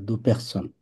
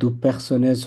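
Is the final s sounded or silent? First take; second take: silent; sounded. First: The final s is not pronounced. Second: The final s is pronounced. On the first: The speaker calls it right. "লাস্টে এস থাকে এটা উচ্চারণ হবে না" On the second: The speaker calls it wrong. "দু personnes হবে না"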